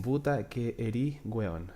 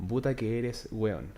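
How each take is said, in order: First: Erí said short for eres; casual Chilean erí weón; Chilean clipped form. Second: Eres said in full, not clipped; careful standard puta que eres weón; full eres with the final s; proper full form. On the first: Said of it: "say, say again". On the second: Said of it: "the proper, uh, way of say it will be". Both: Shown as a demonstration.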